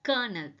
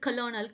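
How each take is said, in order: First: The first part is said as 'ker'. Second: The first part is said as 'kolo'. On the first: The speaker calls it right. "correctly pronounced as கர்னல்" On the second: The speaker calls it wrong. "இது வந்து கலோனல் கிடையாது"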